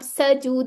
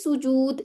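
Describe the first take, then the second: First: The first vowel is an 'a' sound. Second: The first vowel is a 'u' sound. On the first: The speaker calls it wrong. "अब सजूद नहीं कहना" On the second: The speaker calls it right. "बल्कि क्या कहना है? सुजूद"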